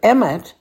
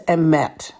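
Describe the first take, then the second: First: The stress is on the first syllable. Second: The stress is on the last syllable. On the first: The speaker calls it wrong. "Instead of emet" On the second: The speaker calls it right. "the accent will still be on the last syllable"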